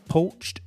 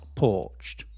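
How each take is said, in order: First: The vowel sounds like 'oh'. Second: The vowel sounds like 'or'. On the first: The speaker calls it right. "It is a poached egg" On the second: The speaker calls it wrong. "not porched"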